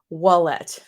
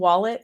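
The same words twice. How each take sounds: First: The word is said with a French accent. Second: The word is said with a plain English accent. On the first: It is the speaker's last name. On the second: It is the ordinary word for a purse.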